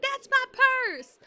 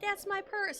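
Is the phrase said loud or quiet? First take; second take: loud; quiet. First: The phrase is said at a louder volume. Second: The phrase is said at a quieter volume. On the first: The speaker calls it right. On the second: The speaker calls it wrong.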